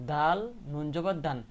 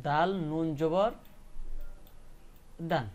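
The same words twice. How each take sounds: First: Said in the usual way. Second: Slow spelling demo. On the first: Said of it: "একটা উচ্চারণ হইতেছে". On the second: Shown as a demonstration. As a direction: spell দাল নুন জবর syllable by syllable for the class. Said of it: "কিভাবে উচ্চারণ করতে হবে".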